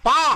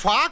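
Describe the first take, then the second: First: The consonant is said without a puff of air. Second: The consonant is said with a puff of air. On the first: The speaker calls it right. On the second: The speaker calls it wrong. "ఫా కాదురా"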